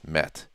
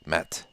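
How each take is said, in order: First: The name is said with a Turkish pronunciation. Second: The name is said with a Turkish pronunciation.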